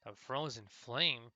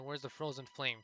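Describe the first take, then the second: First: Put-on slow, puzzled old man's question; drawn-out, mildly bewildered query; confused echo. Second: A touch of impatient urgency; brisk, mildly annoyed questioning; annoyed, desperate demand. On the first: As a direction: repeat it slowly as if trying to remember. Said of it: "looked momentarily confused". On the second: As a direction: press for an answer, mildly exasperated. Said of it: "more annoyed or more desperate". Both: A narrator's reading.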